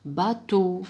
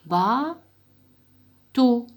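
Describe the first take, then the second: First: Said in the usual way. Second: "Bateau" loud, ending held long; "Bateau" stretched loud, final "teau" drawn out. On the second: Shown as a demonstration. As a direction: hold the last syllable of "Bateau" for pupils to hear the o. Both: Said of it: "يفرقوا بين ال E وال O".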